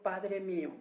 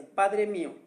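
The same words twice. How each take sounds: First: Said in the usual way. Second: "Padre mío" said louder with weight on "Padre"; preacher stressing "Padre mío" for the congregation; emphatic. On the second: Shown as a demonstration. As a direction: land "Padre mío" firmly so it sticks. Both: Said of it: "que se te quede bien grabada esa frase".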